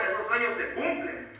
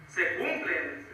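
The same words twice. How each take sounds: First: Said in the usual way. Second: A hushed, drawn-out echo of the last words; slow soft echo. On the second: Real, not acted. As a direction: repeat it slowly and softly, letting it sink in.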